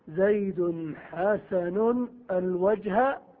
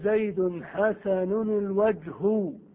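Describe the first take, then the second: First: The last word ends in an a vowel. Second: The last word ends in a u vowel. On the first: The face is treated like a direct object. "أن تنصب المعمول على أنه مشبه بالمفعول به" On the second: The face is the subject of the adjective. "أن ترفع معمولها ... على أنه فاعل"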